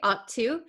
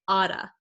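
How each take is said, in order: First: The T is said as a clear T. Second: The T is a flap, like a D. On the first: "we can say ought to" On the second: "you'll hear people say oughta, this double T here becomes a flap T, which sounds like a D sound"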